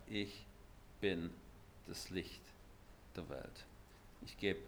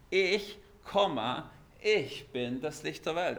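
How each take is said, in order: First: Solemn hush. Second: Ich bin das Licht der Welt with ich pressed hard; stress on ich. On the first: Acted. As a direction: let the words fall quietly, one by one. Solemn slow Jesus quote. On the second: Shown as a demonstration. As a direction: pause after ich, then the rest. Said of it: "Also eine Betonung".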